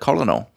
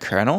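First: It is said as spelled, without an r sound. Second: It is said like kernel, with an r sound. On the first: The speaker calls it wrong. "I used to read a lot as well. And I was like" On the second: The speaker calls it right. "Then I heard it one day, like, ... what the fucking R?"

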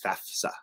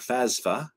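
First: The middle has an f sound before s. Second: The middle has an s sound before f. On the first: The speaker calls it right. "FAFSA, not FASA or FASFA" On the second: The speaker calls it wrong. "Some people pronounce it those ways. They're just dumb"

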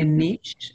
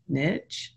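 First: The word is pronounced the fancier way. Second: The word is pronounced the plain, everyday way. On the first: The speaker wants to sound sophisticated. "If you'd like to sound fancy, you can say" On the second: The speaker talks in a down-to-earth way. "if you want to sound like me, you say"

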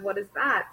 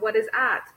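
First: The first sound of 'that' is clearly pronounced. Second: The first sound of 'that' is dropped. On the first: The speaker calls it right. "instead of" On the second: The speaker calls it wrong. "they would not pronounce the D and T sound correctly"

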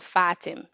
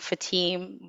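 First: The stress is on the first syllable. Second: The stress is on the second syllable. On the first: The speaker calls it right. "The emphasis is on the A, not the I. So Fatim" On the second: The speaker calls it wrong. "they taught me how to say it in American"

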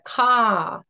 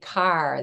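First: The final r sound is dropped. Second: The final r sound is pronounced.

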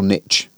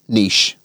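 First: It is said with an American pronunciation. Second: It is said with a British pronunciation.

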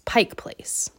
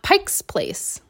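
First: No S sound comes after Pike. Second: An S sound is added after Pike. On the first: The speaker calls it right. "It's Pike Place" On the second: The speaker calls it wrong. "it's not Pike's Place"

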